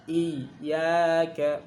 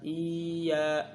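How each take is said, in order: First: "Iyyaka" with the doubled y pressed hard; pressed double y. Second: "iya" light, without doubling; single y mistake. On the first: Teacher demonstrates the stressed doubled letter. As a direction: press the yy firmly. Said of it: "Harus ditekan". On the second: Teacher imitates the wrong single y. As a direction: say it flat as the error. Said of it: "bukan iya". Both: Shown as a demonstration.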